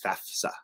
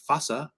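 First: The middle has an f sound before s. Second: The middle has only an s sound. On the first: The speaker calls it right. "FAFSA, not FASA or FASFA" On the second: The speaker calls it wrong. "Some people pronounce it those ways. They're just dumb"

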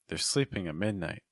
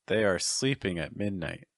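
First: The words 'they are' are joined as 'they're'. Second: The words 'they are' are said separately. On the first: "say it contracted" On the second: "say it with the verb to be in its full form"

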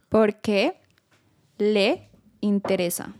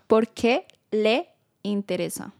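First: It is said more slowly. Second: It is said at normal speed.

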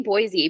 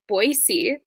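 First: The middle consonant is a Z sound. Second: The middle consonant is an S sound. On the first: The speaker is not from the area. The speaker calls it wrong. "Don't say Boise" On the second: The speaker is a local. The speaker calls it right. "It's Boise"

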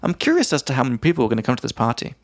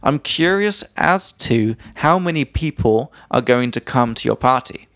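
First: It is said fast. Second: It is said slowly.

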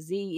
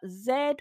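First: The letter is said as zee, American style. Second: The letter is said as zed, British style.

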